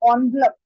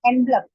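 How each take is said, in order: First: The first syllable sounds like 'on'. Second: The first syllable sounds like 'en'. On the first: The speaker calls it right. "जैसे ओ, ओ का sound आ रहा है" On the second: The speaker calls it wrong. "ये word अक्सर लोग गलत बोलते हैं, दैट इज एनवलप बोलते हैं इसको"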